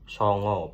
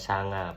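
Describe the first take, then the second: First: Both vowels are rounded 'oh' sounds. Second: Both vowels are open 'ah' sounds. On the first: This is the Jogja way of saying it. "daerah Jogja uh, mengatakan yaitu songo pakai O" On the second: This is the Ngapak way of saying it. "di daerah Ngapak itu bilangnya sanga pakai pakai A"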